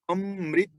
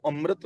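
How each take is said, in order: First: ਅੰਮ੍ਰਿਤ said "am-rit", the i sound carried onto the half r; correct pronunciation. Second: ਅੰਮ੍ਰਿਤ read the wrong way, "amrat" with a plain a after the r; wrong reading shown. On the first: Preacher teaches the congregation the right reading of ਅੰਮ੍ਰਿਤ. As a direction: give ਅੰਮ੍ਰਿਤ a clear "rit" ending with the short i. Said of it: "ਮੰਮੇ ਦੇ ਨਾਲ ਲੱਗੀ ਹੋਈ ਸਿਹਾਰੀ ਰਾਰੇ ਨਾਲ ਬੋਲੇਗੀ". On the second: Preacher shows the congregation the wrong reading of ਅੰਮ੍ਰਿਤ. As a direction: say ਅੰਮ੍ਰਿਤ as the mistaken "am-rat". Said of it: "ਇਹਨੂੰ ਅੰਮ੍ਰਿਤ ਨਹੀਂ ਪੜਨਾ". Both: Shown as a demonstration.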